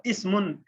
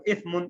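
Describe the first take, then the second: First: اسمن with a clear s, pitched up; اسمن, hissed س before mun; ismun with seen. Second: اثمن with th as in think; اثمن, tongue between the teeth for ث; ithmun with tha. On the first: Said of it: "سین سے اگر ہم کہتے ہیں". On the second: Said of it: "تا سے اگر ہم کہیں گے". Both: Shown as a demonstration.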